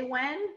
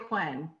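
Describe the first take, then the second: First: Said in the usual way. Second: "when" said as hwen; aspirated WH. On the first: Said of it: "Do you say when or do you say when?". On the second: Shown as a demonstration. Challenging teachers on phonics, "when" said as hwen. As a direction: breathe an h before the w in "when". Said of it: "or do you say when?".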